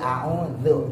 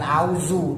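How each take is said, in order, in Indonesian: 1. Konsonan tengahnya, lidah di antara gigi. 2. Konsonan tengahnya bunyi z biasa. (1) "tapi a'udzu. Gigit lidahnya" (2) "Bukan auzu"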